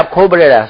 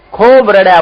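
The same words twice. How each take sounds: First: Said in the usual way. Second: ખૂબ pushed high and loud; emphatic. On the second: A narrator's reading. Preacher stressing how much the man wept, emphatic. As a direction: lean hard on ખૂબ. Narrating the man's weeping.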